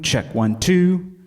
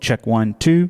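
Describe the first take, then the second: First: The voice has a large hall reverb. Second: The voice has a club room reverb. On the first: "we'll start with Hall, and this lets you hear the room" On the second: "and then club"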